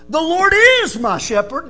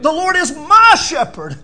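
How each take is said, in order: First: The stress falls on the word "is". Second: The stress falls on the word "my".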